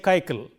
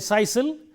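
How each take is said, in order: First: Both c letters are said with a k sound. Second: Both c letters are said with an s sound. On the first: "nor do we say kaikal" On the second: "We don't say sisal"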